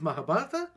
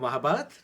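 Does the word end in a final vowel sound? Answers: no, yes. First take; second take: yes; no. First: The word ends with a final vowel sound. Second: The word ends on a consonant, no final vowel. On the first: "sometimes there's an A" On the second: "sometimes there isn't"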